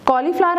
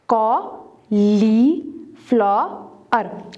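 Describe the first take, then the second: First: Said in the usual way. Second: cauliflower very slowly in four separate beats; long gaps between the syllables of cauliflower. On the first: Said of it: "four syllable word है". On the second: Shown as a demonstration. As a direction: sound out cauliflower piece by piece. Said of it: "separate the syllables".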